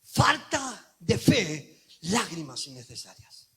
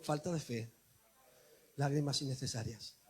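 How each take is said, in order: First: Very slow, then dropping low; slow refrain. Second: Softer, lower repeat for all; soft lead-in refrain. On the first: Acted. Preacher sums up the refrain slowly. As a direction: let it land slowly. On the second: Shown as a demonstration. Preacher leading the church in a soft refrain. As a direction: say it softly with me. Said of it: "Di conmigo".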